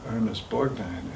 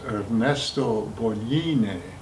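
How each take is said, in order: First: The name is said in an Americanized way. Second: The name is said in an Italian way. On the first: This is how most people say it. The speaker calls it wrong. "Everybody would say" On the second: This is how the name is said in Italian. The speaker calls it right. "that's the correct Italian pronunciation"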